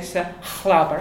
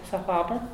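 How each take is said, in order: First: The 'ch' sound is harsh and strong. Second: The 'ch' sound is very soft. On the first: The speaker calls it wrong. "I wouldn't say Sachlaber" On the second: The speaker calls it right. "I would say Sachlaber, It's very, very soft"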